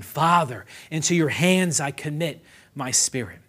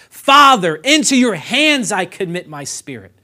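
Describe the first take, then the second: First: Said in the usual way. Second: Loud, high shout on Father, easing afterwards; screamed cry. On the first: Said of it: "Jesus screams like a madman". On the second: Retold or imitated. Preacher quotes Jesus' last words to his Father, screaming. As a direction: cry out to Father, then let it fall. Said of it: "screaming this".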